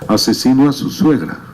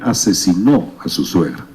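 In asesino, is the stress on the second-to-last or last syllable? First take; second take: second-to-last; last. First: The stress is on the second-to-last syllable. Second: The stress is on the last syllable. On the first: A murderer to his mother-in-law. The speaker calls it wrong. "lo que está escrito" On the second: He murdered his mother-in-law. The speaker calls it right. "quisieron decir"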